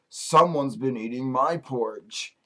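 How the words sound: It is said in a big voice. "in his big voice"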